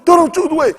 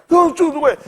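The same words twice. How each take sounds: First: High put-on country voice; country man voice. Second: High put-on voice of the country man; imitating that guy. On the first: Telling the kid to ditch his shoes in a high voice. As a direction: order it like the old man. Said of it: "I'm like". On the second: Repeating the country man's order in a high voice. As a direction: toss it off like the old man would. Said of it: "Talk like that guy".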